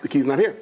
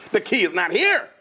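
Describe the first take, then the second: First: Said in the usual way. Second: Higher, word-by-word protest; exasperated insistence. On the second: Retold or imitated. Husband arguing with wife over the missing key, exasperated. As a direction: insist on it, voice pitched up.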